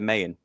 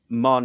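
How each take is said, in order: First: The name is said as two syllables. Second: The name is said as one syllable. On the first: The speaker calls it wrong. "instead of Mayan" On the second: The speaker calls it right. "they pronounce it Mon"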